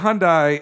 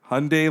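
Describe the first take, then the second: First: The last syllable sounds like 'die'. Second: The last syllable sounds like 'day'. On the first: The speaker calls it wrong. "I'd always said" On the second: The speaker calls it right. "like Sunday"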